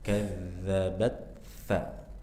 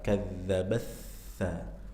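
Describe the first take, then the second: First: The t and th are both clearly pronounced. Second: The t merges straight into the th sound. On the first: The speaker calls it right. "Ini dibaca izhar. Ta-nya jelas, tha-nya jelas" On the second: The speaker calls it wrong. "kalau dibaca dengan idgham maka antum bisa langsung ke tha"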